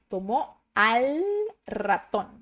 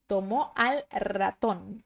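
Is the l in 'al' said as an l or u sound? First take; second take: l; l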